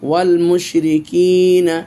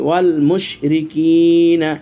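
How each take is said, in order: The two takes are said the same way.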